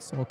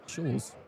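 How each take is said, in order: First: The name is said like 'Sulk'. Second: The name is said like 'Schulz'. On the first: The speaker calls it wrong. "I mispronounced uh, Nicholas's last name. It's not Sulk" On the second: The speaker calls it right. "it's Schulz"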